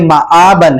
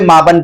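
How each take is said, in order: First: A clear glottal catch separates the vowels. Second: The vowels run together without a glottal catch. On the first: The speaker calls it right. "हमजा की जो अदायगी है वो ठीक तरीके से हो" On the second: The speaker calls it wrong. "अक्सर बच्चे माबन पढ़ते हैं इसको"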